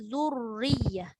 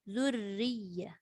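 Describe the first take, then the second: First: The doubled r is half heavy, half light. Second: The doubled r is light throughout. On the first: The speaker calls it wrong. "Maknanya ra tu separuh tebal, separuh nipis" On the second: The speaker calls it right. "Maka dibaca dengan nipis"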